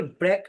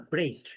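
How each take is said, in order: First: ব্রেক with a short "e", like "brek"; short-vowel mispronunciation. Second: ব্রেক with a gliding "ei", like "breyk"; diphthong pronunciation. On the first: Teacher warning learners off saying ব্রেক as "brek", short vowel. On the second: Teacher modelling ব্রেক as "breik" for learners, gliding vowel. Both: Shown as a demonstration. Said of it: "এটাকে ব্রেক বলা যাবে না".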